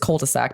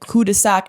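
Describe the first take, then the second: First: It is said with an ordinary English pronunciation. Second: It is said with a French-style pronunciation.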